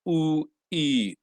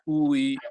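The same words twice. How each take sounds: First: The two sounds are said slowly. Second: The two sounds are said quickly.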